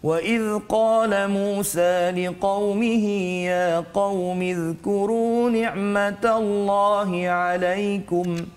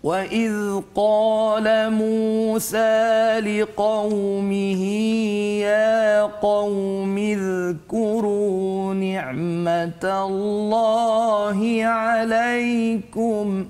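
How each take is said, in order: First: It is recited at a moderate, measured pace. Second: It is recited very slowly and melodiously. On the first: "tartil itu laju sedikit ya" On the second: "Itu contoh"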